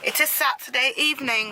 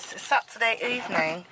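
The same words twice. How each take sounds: First: Said in the usual way. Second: Trying a put-on British accent; clipped attempt at British English for the camera; mock British accent. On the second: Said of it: "my British".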